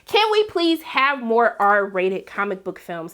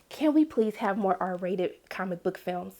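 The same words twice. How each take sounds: First: It is said at a noticeably louder volume. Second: It is said at a normal, softer volume.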